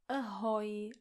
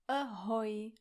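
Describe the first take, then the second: Both takes have the same delivery.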